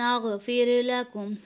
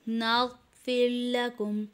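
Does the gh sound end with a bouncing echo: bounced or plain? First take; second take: bounced; plain. First: The gh sound ends with a bouncing echo. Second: The gh sound is smooth without an echo. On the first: The speaker calls it wrong. "गैन में कलकला कर देते हैं। कलकला किस तरह कर देते हैं" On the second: The speaker calls it right. "नाग नहीं बल्कि सिर्फ"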